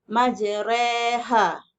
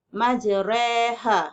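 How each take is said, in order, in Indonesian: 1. Vokal tengahnya ada di antara a dan i. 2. Vokal tengahnya ada di antara a dan i.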